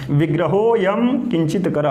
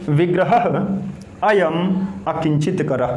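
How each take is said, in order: First: The words are run together with sandhi joining. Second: The words are said separately, without sandhi joining. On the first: "एक साथ पढ़ना हो तो कैसे पढ़ेंगे?" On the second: "तोड़ेंगे।"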